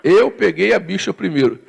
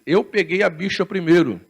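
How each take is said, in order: First: Mild mock argument. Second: Quoting the quarrel while laughing; mock argument, laughing. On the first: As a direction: insist like a man arguing in line. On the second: Preacher retelling airport quarrel, laughing. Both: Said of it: "esse muçulmano brigando com o português".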